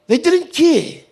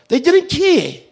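Both takes have the same delivery.

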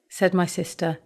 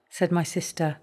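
The two takes are said the same way.

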